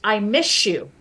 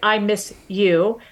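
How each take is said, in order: First: The s and y blend into sh. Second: The s and y stay separate sounds.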